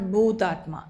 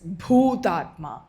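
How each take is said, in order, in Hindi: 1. पहला व्यंजन बिना महाप्राण के बोला जाता है। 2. पहला व्यंजन महाप्राण के साथ बोला जाता है। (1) "It's it's not Bhutatma" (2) "It's pronounced with an aspiration"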